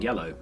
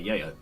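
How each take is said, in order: First: The middle consonant is a clear L sound. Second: The L is replaced by a Y sound. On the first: The speaker calls it right. "instead of saying yellow" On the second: The speaker calls it wrong. "I would say yayo"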